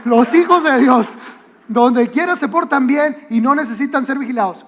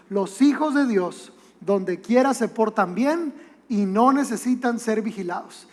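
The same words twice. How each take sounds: First: Louder, imitating a nagging mom; mock motherly reminder, projected; insistent mother repeating. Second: Said in the usual way. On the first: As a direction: call the motto after departing kids. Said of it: "lo repetía como, como así". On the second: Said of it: "nos despedía diciéndonos".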